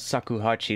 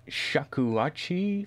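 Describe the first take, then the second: First: The word begins with a plain s sound. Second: The word begins with a sh sound. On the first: The speaker calls it wrong. "that's not really how you pronounce it" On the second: The speaker calls it right. "that's a shakuhachi flute"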